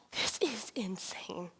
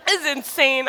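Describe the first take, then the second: First: Slow, whispered "This is insane." with a falling end; hushed thought. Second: "this is insane." said through a laugh. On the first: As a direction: breathe it out slowly to yourself. Lying awake thinking, whispered. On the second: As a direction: laugh it out in happy disbelief. Laughs at husband's words. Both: Retold or imitated.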